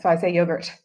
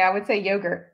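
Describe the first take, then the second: First: Yogurt with a short yo, the way the hosts say it; so I say yogurt, picked up from the hosts; the changed pronunciation. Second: Yogurt said with a long yo as in go; I would say yogurt, the way she says it at home; her home pronunciation. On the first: Guest showing the pronunciation she caught from the hosts. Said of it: "made me change my teas by accident". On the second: Guest showing how she says yogurt at home. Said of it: "I'm saying it differently". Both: Shown as a demonstration.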